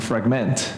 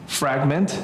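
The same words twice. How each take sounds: First: Fragment as the verb, frag-MENT; stress on second syllable. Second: Fragment as the noun, FRAG-ment; stress on first syllable. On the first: Teacher giving a verb example, fragment stressed frag-MENT. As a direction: hit the last syllable of fragment. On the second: Teacher giving a noun example, fragment stressed FRAG-ment. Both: Shown as a demonstration. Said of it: "where you put the accent".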